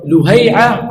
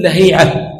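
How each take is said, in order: First: لهيعة said "Luhay'a", u after the l; damma reading. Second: لهيعة said "Lahi'a", a after the l, long i; fatha reading. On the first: Teacher contrasting vowel marks in a name, damma reading "Luhay'a". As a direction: say لهيعة as lu-HAY-'a. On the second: Teacher giving the alternative name, fatha reading "Lahi'a". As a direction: say لهيعة as la-HEE-'a. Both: Shown as a demonstration. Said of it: "إما بالفتح وإما بالضم".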